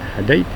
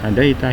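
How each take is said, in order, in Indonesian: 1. Kata ini berhenti pada konsonan terakhirnya. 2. Kata ini berakhir dengan vokal tambahan di akhir. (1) "betul pendek, hadait pendek"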